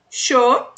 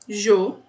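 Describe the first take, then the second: First: It starts with a sh sound. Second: It starts with a soft zh sound. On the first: "a primeira é com som de X" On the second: "é som de J, bem levinho"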